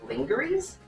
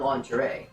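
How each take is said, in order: First: It is pronounced literally, following the spelling. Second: It is pronounced the standard way, unlike spelling. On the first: "I'm saying it in the more literal, the literal word, um, spelling of it" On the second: "not lingerie"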